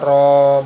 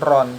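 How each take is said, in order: First: The syllable ends on a long open vowel. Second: The syllable ends with an n sound. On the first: The speaker calls it right. "Jadi cara bacanya ro" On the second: The speaker calls it wrong. "bukan ron"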